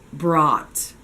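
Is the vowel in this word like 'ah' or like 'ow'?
ah. The vowel is pronounced as a short 'ah' sound. The speaker calls it right. "it's just going to have an open O, short O vowel sound"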